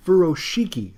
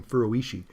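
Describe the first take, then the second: First: Furoshiki with a clear "shee-kee" ending; Furoshiki, pitched up, "SHEE-kee" punched; corrected pronunciation. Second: Furoishi ending in "ee-shee", no K; mistaken pronunciation. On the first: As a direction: say Furoshiki with a firm K, higher pitched. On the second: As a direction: say Furoishi softly, as "furo-ee-shee". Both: Shown as a demonstration. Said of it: "I've been f-, saying Furoishi".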